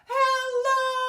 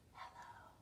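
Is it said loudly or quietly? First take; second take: loudly; quietly. First: It is said very loudly. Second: It is said very quietly.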